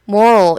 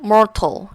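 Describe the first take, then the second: First: It has an American accent with a softened t. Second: It has a British accent with a clear t. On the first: "미국식은 좀 더 moral, moral 이렇게 되고" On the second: "영국식으로는 mortal 이렇게 하더라고요"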